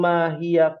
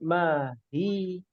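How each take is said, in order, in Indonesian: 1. Kata itu berakhir dengan vokal 'a', mengalir terus. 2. Kata itu berakhir mendadak tanpa vokal akhir. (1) "kalau mau disambung mahia qala langsung bersambung" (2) "kalau berhenti sampai mahi nya tidak dibaca fathah tapi dibaca sukun"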